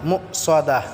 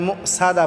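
First: The s sound is heavy and full. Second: The s sound is light and thin. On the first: The speaker calls it right. "সোয়াদটাকে আমরা ভালো করে সোয়াত উচ্চারণ করব" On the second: The speaker calls it wrong. "এখানে মুসাদা বললে হবে না"

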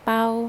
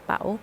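First: The syllable is said with a level mid tone. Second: The syllable is said with a rising tone. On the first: "เสียงสามัญ" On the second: "ไม่จัตวา"

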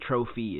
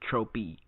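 First: The middle consonant is an f sound. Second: The middle consonant is a p sound. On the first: The speaker calls it wrong. "His name isn't Trophy" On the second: The speaker calls it right. "it's Tropy"

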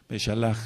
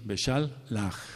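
First: The word is said smoothly without a break. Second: The word is broken into separate parts. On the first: "en corrido" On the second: "Otros pronuncian como apartadito así"

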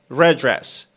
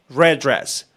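First: The d sounds merge into one word. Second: The d sounds merge into one word.

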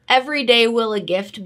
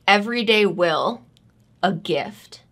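First: It is read straight through without pauses. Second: It is read with long dramatic pauses.

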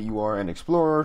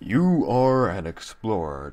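First: It is said in his normal voice. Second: It is said in a put-on explorer voice.

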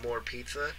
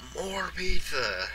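First: It is said in an ordinary conversational voice. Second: It is said in a big, booming put-on voice. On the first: It is a plain offer of more food. "use regular more for, like, oh, you mean you want some more pizza?" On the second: It is a greedy, jokey demand for more food. "the M-O-A-R is the large guy that's like"

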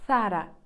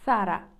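No difference in how they are said.

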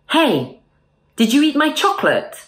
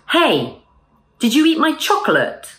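First: The middle O sound in 'chocolate' is dropped. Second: The middle O sound in 'chocolate' is pronounced. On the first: The speaker calls it right. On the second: The speaker calls it wrong.

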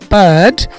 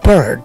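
First: British accent, with no r sound. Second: American accent, with the r sound pronounced. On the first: "British ইংলিশে বলবে" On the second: "American ইংলিশে বলবে"

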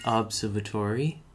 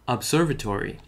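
First: The word is pronounced in an odd way. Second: The word is pronounced in a normal way. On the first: The speaker calls it wrong. "I said that in a weird way" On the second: The speaker calls it right. "now I said it correctly"

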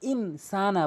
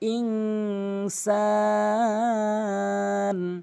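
First: The n is plain, with no nasal hum. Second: The n is nasalized and held in the nose. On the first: The speaker calls it wrong. "অধিকাংশ লোক ইন সানা বলে" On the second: The speaker calls it right. "গুন্না করে বলতে হবে, নাকের ভিতরে নিতে হবে"

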